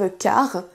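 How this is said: The final R is rolled strongly. The speaker calls it wrong. "attention à ne pas prononcer le R de façon trop prononcée. Ne dites pas"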